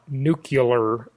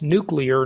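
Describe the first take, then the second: First: The word is pronounced differently from its spelling. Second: The word is pronounced the way it is spelled. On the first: The speaker calls it wrong. "not nuclear, George Bush and many others who mispronounce it" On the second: The speaker calls it right. "that's nuclear, ... It's nuclear. Just look at the way it's spelled"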